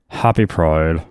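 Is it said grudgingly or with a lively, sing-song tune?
grudgingly. It is said grudgingly and flatly.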